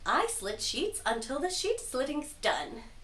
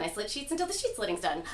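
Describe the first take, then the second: First: It is said slowly. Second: It is said fast.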